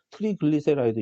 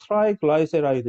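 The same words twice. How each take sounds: First: "트리글리세라이드" said the Korean textbook way, with ee vowels in 트리 and 글리; Korean-style pronunciation. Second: "트라이글라이세라이드" said the English way, with "트라이" and "글라이" as tri and gly rhyming with eye; English pronunciation. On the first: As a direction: say "트리글리세라이드" with tree and glee sounds at the start. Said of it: "우리는 한글판으로는". ("트리글리세라이드"를 한글판식으로 '이' 모음으로 발음) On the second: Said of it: "영어 발음은". ("트라이글라이세라이드"를 영어식으로 '아이' 모음을 살려 발음) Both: Shown as a demonstration.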